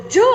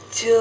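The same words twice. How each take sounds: First: Short Sulawesi-style call; Sulawesi-accented summons; Sulawesi intonation. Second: Long, level Solo-style call; drawn-out Solo Javanese lilt; Solo intonation. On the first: Retold or imitated. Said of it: "orang Sulawesi yang panggil". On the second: Shown as a demonstration. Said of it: "Kalau orang Solo yang panggil".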